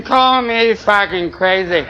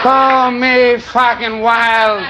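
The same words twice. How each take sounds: First: Very slow, each word drawn out; slow dramatic. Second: Slow dramatic. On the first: Comic winding up his peace dream to the crowd, very slow. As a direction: savour it like a grand declaration. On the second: Comic topping his own dramatic line to the crowd, very slow. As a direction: stretch every word out grandly. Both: Acted.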